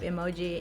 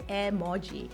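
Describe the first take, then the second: First: It is pronounced the English way. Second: It is pronounced the Japanese way.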